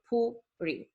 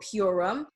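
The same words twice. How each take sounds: First: The vowels are said as oo and ee. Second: The vowels are not said as oo and ee. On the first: The speaker calls it right. "The U is pronounced as U, and the I is pronounced as E" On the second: The speaker calls it wrong. "it's not Purim"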